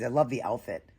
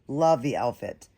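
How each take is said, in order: First: Said in the usual way. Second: "Love" punched louder, slower; emphatic repeat. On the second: Real, not acted. Repeating her praise of the outfit, louder emphasis on "Love". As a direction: insist on how much she loves it.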